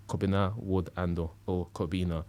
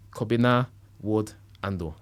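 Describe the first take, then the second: First: Said in the usual way. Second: Name said with a Ghanaian accent. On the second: Shown as a demonstration. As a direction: Kobina Wood Ando, Ghanaian style. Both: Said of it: "I'm saying it with a Ghanaian accent".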